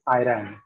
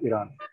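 First: It is said with an American pronunciation. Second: It is said with an Indian English pronunciation. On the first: The speaker calls it wrong. "Americans tend to pronounce it as Iran" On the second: The speaker calls it right. "It's obviously Iran"

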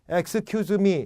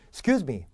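First: Every syllable is said with equal strength. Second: The first syllable is weak and barely audible. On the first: "이렇게 얘기하면 알아듣기 좋아요" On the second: "앞에 액인지 이긴지 들리지도 않죠"

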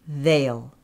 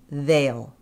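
The two takes are said the same way.

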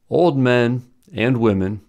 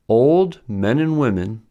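First: There is a pause right after 'men'. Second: There is no pause right after 'men'. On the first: Only the men are old. "which means that only men are old" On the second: Both the men and the women are old. "which means that both men and women are old"

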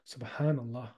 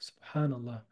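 Both takes have the same delivery.

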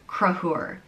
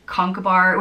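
First: The name is said in a heavily shortened form. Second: The name is said with all its written syllables. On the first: The speaker calls it right. "I think the correct way is Gruagh" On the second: The speaker calls it wrong. "I learned it in school as Conchobar, which apparently is totally wrong"

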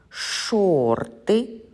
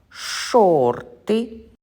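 The two takes are said the same way.

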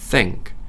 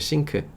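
First: It begins with a th sound. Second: It begins with an s sound. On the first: The speaker calls it right. "좀 더 영어식으로 하려면 think가 돼야 돼요" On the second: The speaker calls it wrong. "보통 우리 싱크라고 하죠"

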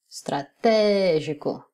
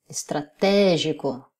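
The two takes are said the same way.

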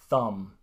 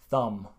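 The two takes are said the same way.

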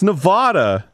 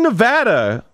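First: The stressed vowel sounds like the vowel in father. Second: The stressed vowel sounds like the vowel in cat. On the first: The speaker calls it right. "It's Nevada" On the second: The speaker calls it wrong. "It's not fucking Nevada. ... What language has that ass sound?"

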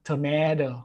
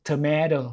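First: It is said with an American accent. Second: The same.

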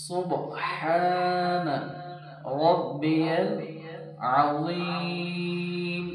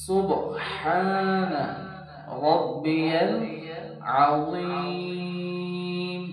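Both takes have the same delivery.

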